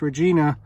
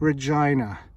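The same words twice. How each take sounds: First: The name is said the outsider way. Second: The name is said the local way. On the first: The speaker calls it wrong. "don't pronounce this Regina, you'll get corrected" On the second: The speaker calls it right. "It's Regina"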